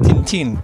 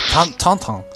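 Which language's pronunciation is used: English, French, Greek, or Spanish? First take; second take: Spanish; French. First: The name is said with a Spanish pronunciation. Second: The name is said with a French pronunciation. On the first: "in Spain we call it Tintin" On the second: "In French, ... It's Tantan"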